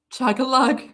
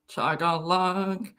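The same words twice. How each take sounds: First: Said in the usual way. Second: Chug-a-lug dragged out slowly and softer; slow, mock-serious Chug-a-lug. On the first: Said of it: "repeats the phrase". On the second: Shown as a demonstration. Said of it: "repeats the phrase slowly, lower".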